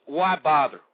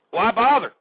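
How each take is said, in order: First: Said in the usual way. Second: Louder and higher, throwing the question out in disgust; an exasperated shout of why bother; exasperated outburst. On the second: Real, not acted. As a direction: fling it at the listeners, fed up.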